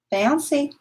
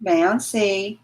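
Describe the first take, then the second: First: "Bouncy" called higher in a sing-song; "Bouncy" lifted high like calling a pet. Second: Said in the usual way. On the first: Real, not acted.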